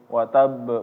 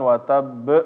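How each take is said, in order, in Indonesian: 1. Huruf b terakhir dilepas dengan sedikit pantulan. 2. Huruf b terakhir dinaikkan dengan tekanan. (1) "qalqalah itu dipantul" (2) "bacanya di cara dinaikin itu salah"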